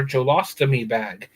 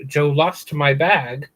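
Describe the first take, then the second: First: "a me bag" with "a me" in place of "my"; slangy broken phrasing. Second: Said in the usual way. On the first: Shown as a demonstration. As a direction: say "Joe lost a me bag" with the extra "a" and "me" for "my".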